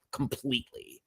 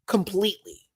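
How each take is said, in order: First: Whispered. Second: Completely said higher, full voice; high emphatic. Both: Real, not acted.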